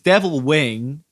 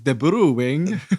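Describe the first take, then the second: First: Devil is pronounced the ordinary English way. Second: Devil is pronounced like Japanese debiru. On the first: The speaker calls it wrong. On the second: The speaker calls it right.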